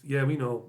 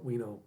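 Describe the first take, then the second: First: Said in the usual way. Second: Softer echo. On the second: Real, not acted. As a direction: repeat it quietly, trailing off.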